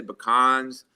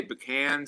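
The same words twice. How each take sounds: First: "pecans" said puh-KAHNZ, broad ah in the second syllable. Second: "pecan" said pih-KAN, stress on the second syllable, short a. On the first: Contrasting regional sayings, "pecans" said puh-KAHNZ. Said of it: "some people say pecans". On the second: Explaining regional sayings, "pecan" said pih-KAN. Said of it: "some people say pecan". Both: Shown as a demonstration.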